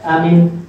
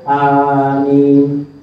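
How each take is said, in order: First: Both vowels are kept short. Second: Both vowels are held long. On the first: The speaker calls it wrong. "Dua-duanya pendek" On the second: The speaker calls it right. "dua-duanya panjang, tidak ada tasydid pada mimnya"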